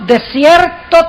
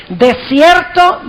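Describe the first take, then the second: The two takes are said the same way.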